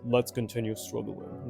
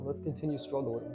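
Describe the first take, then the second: First: It is said in an exaggerated deep voice. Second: It is said in the speaker's normal voice.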